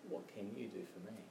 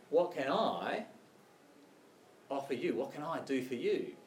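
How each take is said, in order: First: Soft question with weight on "you"; hushed, quicker plea leaning on "you"; stress on YOU. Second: Emphatic "I", voice rising on it; stress on I. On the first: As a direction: quietly put the emphasis on "you". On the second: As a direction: lean on the word "I" as the one offering. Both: Acted. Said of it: "Can you see the difference?".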